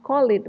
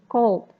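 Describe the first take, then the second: First: The ending is an extra syllable, like 'id'. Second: The ending is a plain d with no syllable. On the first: The speaker calls it wrong. "It's not call it" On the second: The speaker calls it right. "it should be called"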